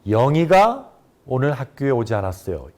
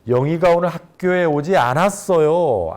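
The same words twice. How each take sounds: First: The stress falls on the word 영희가. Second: The stress falls on the word 않았어요. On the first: It was this person, not someone else, who didn't come. "영희가에 강세를 줘서 발음" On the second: Someone who is never absent was absent this time. "않았어요를 강조하게 되면"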